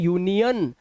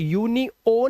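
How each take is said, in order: First: The last syllable has a weak 'uh' vowel. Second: The last syllable has a full 'o' vowel. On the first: The speaker calls it right. "इसे पढ़ते हैं यूनियन" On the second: The speaker calls it wrong. "इसको यूनिओन नहीं पढ़ते"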